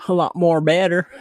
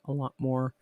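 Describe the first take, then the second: First: Playful louder self-correction; jokey correction. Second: Said in the usual way. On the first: Real, not acted. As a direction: bump it up with a wink.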